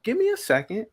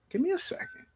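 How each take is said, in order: First: Said in the usual way. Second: Much higher and much softer; hushed plea. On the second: Real, not acted. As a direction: drop to a hushed high plea for patience.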